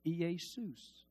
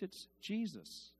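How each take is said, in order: First: Jesus said as "ee-AY-soos"; Greek Iesous. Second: Jesus said as "JEE-zus"; English Jesus. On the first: Preacher showing the Greek form, said as "ee-AY-soos". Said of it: "What is he called?". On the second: Preacher showing the English form, said as "JEE-zus". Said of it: "And in English". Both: Shown as a demonstration.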